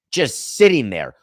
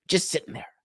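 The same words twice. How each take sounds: First: Said in the usual way. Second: Breathy unvoiced aside, slightly higher; amused whisper. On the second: Host whispering about A-Rod's idle money, amused. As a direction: toss it off under your breath, amused.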